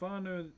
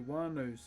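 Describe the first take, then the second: First: The word begins with an F sound. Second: The word begins with a W sound. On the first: "an F in our language is a W H" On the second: "some tribes that say wānau, so they um, silence the the H"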